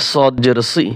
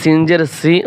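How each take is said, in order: First: সি with a heavy, emphatic sad "s"; similar-letter contrast. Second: সি with a thin, light seen "s"; similar-letter contrast. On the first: Teacher contrasting sad with seen, heavy সি. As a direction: thicken সি into a dark, full-mouthed "swee". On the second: Teacher contrasting seen with sad, light সি. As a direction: say সি as a plain thin "see". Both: Shown as a demonstration. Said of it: "একটা হরফের উচ্চারণ অন্য হরফের সাথে মিলে যায়".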